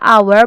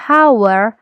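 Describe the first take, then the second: First: The word starts with a vowel, no h sound. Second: The word starts with an audible h sound. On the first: The speaker calls it right. "Memang cara baca yang tepat itu the hour" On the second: The speaker calls it wrong. "bukan hour"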